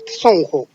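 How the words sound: It is pronounced the Cusco Quechua way. "in Cusco, people say Sonjo"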